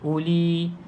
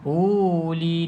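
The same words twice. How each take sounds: First: The first vowel is short, not lengthened. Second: The first vowel is stretched out long. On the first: "Bacaan pertama tadi" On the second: "Bacaan kedua uli dipanjangkan"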